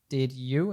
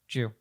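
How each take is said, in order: First: Both words are said fully and separately. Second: The words merge into one syllable, 'jew'. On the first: "instead of being did you"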